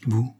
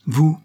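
First: Said in the usual way. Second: "Vous?" jumps higher and louder in shock; stunned disbelief. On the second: Acted. Wife faced with her supposedly dead husband, shocked disbelief. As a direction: blurt it out, unable to believe he is alive. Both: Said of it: "Voilà une surprise".

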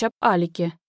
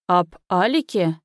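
First: Said in the usual way. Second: "Об Алике" slowly, each syllable set apart; almost syllable by syllable. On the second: A narrator's reading. Father repeats his son's words in disbelief, nearly syllable by syllable. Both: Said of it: "повторил отец чуть ли не по слогам".

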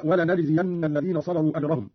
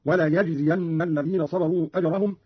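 First: Said in the usual way. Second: وليجزين said "wa-la-yajziyanna", with y; ya for nun. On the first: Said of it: "قرأ قالون بالياء". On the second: Shown as a demonstration. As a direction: put a y sound, not n, in وليجزين. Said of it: "قرأ قالون بالياء هكذا". (قراءة وليجزين بالياء)

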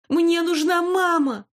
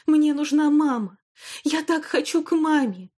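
First: High, loud, slow desperate cry; sudden scream. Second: Sobbing cry. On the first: Girl suddenly screams to her grandmother for her mother, high and loud. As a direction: scream it out, the pain finally bursting. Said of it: "внезапно закричала она". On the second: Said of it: "рыдая и раскачиваясь". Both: Acted.

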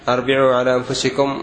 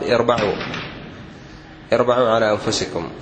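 First: "أربعوا" said arbi'u, a first, i after the b; "أربعوا" with opening a and middle i; wrong reading. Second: "اربعوا" said irba'u, i first, a after the b; "اربعوا" with opening i and middle a; correct reading. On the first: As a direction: demonstrate the mistaken arbi'u in "أربعوا". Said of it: "خطأ". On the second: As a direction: model the proper irba'u in "اربعوا". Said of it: "والصواب". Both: Shown as a demonstration.

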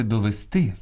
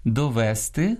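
First: Довести stressed on final ТИ; end-stressed довести; stress on last syllable. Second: Довести stressed on middle ВЕ; dialectal stress. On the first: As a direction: say до-ве-СТИ. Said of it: "а правильно сказати довести". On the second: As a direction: say до-ВЕ-сти. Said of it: "Або ж діалектним впливом". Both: Shown as a demonstration.

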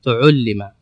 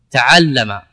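First: تعلم said as tuʕullima, u on the first two letters; tuʕullima, rounding the opening vowels; passive form. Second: Said in the usual way. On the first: Shown as a demonstration. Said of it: "لكن في البناء تقول تعلم". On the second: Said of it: "العين مفتوحة".

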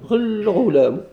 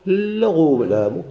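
First: الغلام said higher with a clear "a" sound before the لام; demo pronunciation. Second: الغلام very slowly, each sound drawn out, rising at the end; slow demo pronunciation. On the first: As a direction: set off الغلام clearly on a high pitch. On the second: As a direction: spell out الغلام slowly for the class. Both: Shown as a demonstration. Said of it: "هذا اللام هذا كيف خصنا نقولوا".

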